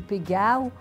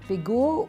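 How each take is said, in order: First: The name is pronounced in Provençal style. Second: The name is pronounced in standard French style. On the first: "en provençal" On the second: "on prononce"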